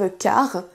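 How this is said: The final R is rolled strongly. The speaker calls it wrong. "attention à ne pas prononcer le R de façon trop prononcée. Ne dites pas"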